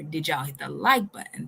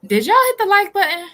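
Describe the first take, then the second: First: Said in the usual way. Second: High, loud, shouted question to the chat; loud call-out. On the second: Real, not acted. Calling out to the viewers.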